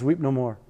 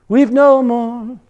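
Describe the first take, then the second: First: Said in the usual way. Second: Slow, high sung line with long held notes. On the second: Shown as a demonstration. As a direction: sing it out unaccompanied as a hymn. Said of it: "Can you sing that?".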